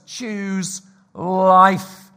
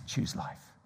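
First: Emphatic command. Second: "Choose life" whispered softly and slowly; whispered plea. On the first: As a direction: Choose life called out loud and firm. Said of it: "punchy sermon exhortation". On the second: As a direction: breathe it as a gentle plea. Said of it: "hushed final exhortation". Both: Real, not acted.

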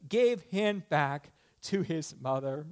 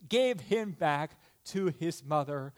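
The two takes are said the same way.

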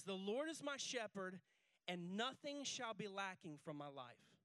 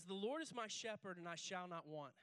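First: Slow, deliberate reading. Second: Said in the usual way. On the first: Shown as a demonstration. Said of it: "He says". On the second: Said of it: "It says".

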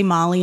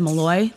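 First: Molly as MOL-ee, stress first; Molly, first syllable stressed; mistaken pronunciation. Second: Malloy as muh-LOY, stress last; Malloy, second syllable stressed; correct pronunciation. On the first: Retold or imitated. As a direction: say Molly with an "ee" ending. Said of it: "when they say Molly instead". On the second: Shown as a demonstration. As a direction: say Malloy with an "oy" ending. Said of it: "instead of Malloy".

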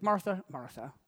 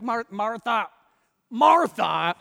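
First: Gently repeated name; tender, gentle. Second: Raised, emphatic name-calling; imagined exclamation. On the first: Jesus answering a stressed Martha, tender and gentle. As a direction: say her name with soft affection. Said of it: "So tender, so gentle". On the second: Preacher guessing how Jesus said it, loud and emphatic. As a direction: call her name out, louder the second time. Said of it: "I imagine how he said". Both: Acted.

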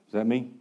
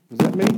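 First: Softer, lower repeat; Is that me asked again, softer; quieter. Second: Said in the usual way. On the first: Real, not acted.

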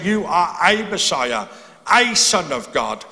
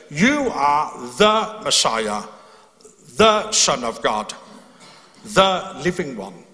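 First: Light, passing "a" as the wrong reading; contrasting a. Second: Slow, deliberate "the" leaning on the definite article; stress on the. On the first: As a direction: toss off "a Messiah", "a Son" as just one of many. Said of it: "he's not saying". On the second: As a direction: weigh each "the" as if it names the only one. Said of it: "the key there is that word "the". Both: Shown as a demonstration.

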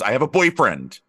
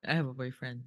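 First: Announced loudly. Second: Quiet deadpan repeat. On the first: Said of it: "You have to be like". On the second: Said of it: "every interview". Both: Retold or imitated.

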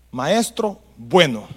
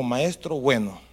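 First: "Maestro bueno" drawn out slowly, each word weighed; slow emphasis. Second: Said in the usual way. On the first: Shown as a demonstration. Preacher dwelling on the young man's words, slow and weighty. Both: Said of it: "Tenía convencimiento de palabra".

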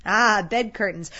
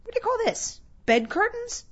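First: Loud, slow, drawn-out "Ah", then falling; brazen charwoman confirming. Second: Very high, astonished questioning voice; incredulous old Joe. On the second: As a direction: squeak it out in disbelief. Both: Acted.

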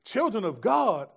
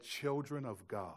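First: Louder, higher, incredulous echo of the demon's words; amazed retelling. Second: Slow, quiet, knowing demon; a hint of the demon, slow and soft. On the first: Retold or imitated. Young preacher shocked by the demon's words, loud disbelief. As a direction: repeat it in disbelief, worked up. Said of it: "But I remember being like". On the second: Possessed woman eyeing the children of God, slow quiet demon. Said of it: "looked at them and said".

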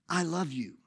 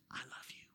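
First: Said in the usual way. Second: Barely audible whisper; intimate, voiceless whisper. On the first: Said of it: "That's what I said". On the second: Shown as a demonstration. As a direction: whisper it close into one person's ear. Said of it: "So that's why I'm whispering".

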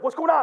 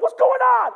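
First: Said in the usual way. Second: High, loud alarmed wife; shrieked worried question, acted; alarmed shout. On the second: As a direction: imitate a wife crying out in alarm. Wife reacts to his yelling.

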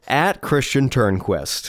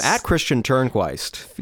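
First: Turnquist ending like "quest"; corrected ending. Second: Turnquist ending like "kwaist"; mispronounced ending. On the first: Host repeating a corrected handle, Turnquist ending in "quest". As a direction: say the end of Turnquist with a short "eh", slowly. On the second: Host reading out a handle, Turnquist ending in "kwaist". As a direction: say the end of Turnquist with a long "eye" glide, slowly. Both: Real, not acted.

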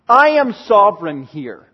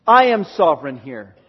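First: Louder, emphatic, stress on I; firm ringing statement; sovereign declaration. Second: Lower, settled repeat with stress on I; low echo. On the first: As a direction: proclaim it as God. Repeats God's claim twice. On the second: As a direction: drop it down with weight. Second, lower take. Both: Acted.

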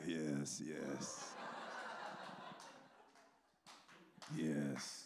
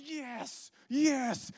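First: Low, soft, laid-back approval; Sorpresa. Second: High-pitched fired-up cry; Chris. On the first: Imitating the onlooker quietly approving his partner, low and soft. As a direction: murmur it deep and unhurried, long gaps between. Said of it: "Sorpresa is just like". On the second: Imitating an eager evangelist in the car, high excited shouting. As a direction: yell it with comic over-the-top zeal. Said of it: "And he's just like". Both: Retold or imitated.

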